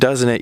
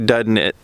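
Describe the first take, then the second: First: It is said in a standard general pronunciation. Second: It is said in a local regional pronunciation. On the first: "instead of saying" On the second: "whenever you're in Ohio, you always say"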